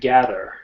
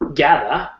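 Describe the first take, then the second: First: The final syllable has an r-colored vowel. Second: The final syllable ends in an open 'ah' vowel.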